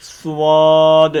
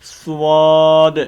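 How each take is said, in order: First: The lips round, adding a w-like glide. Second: The same.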